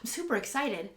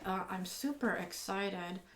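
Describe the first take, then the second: First: It sounds lively and enthusiastic. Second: It sounds flat and unenthusiastic.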